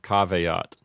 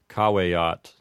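First: The middle consonant sounds like a 'v'. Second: The middle consonant sounds like a 'w'. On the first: "instead of" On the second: "it had a vowel sound to it. So they might have said"

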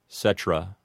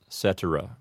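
First: The word is said with two syllables. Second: The word is said with three syllables. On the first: The speaker calls it wrong. "reduce it from three syllables down to two" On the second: The speaker calls it right. "all three syllables in the word cetera"

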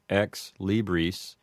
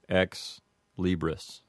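First: It is said with classical Latin vowels. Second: It is said with Americanized short I vowels. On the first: "a correct Latin pronunciation would say" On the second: "an Americanized one would say"

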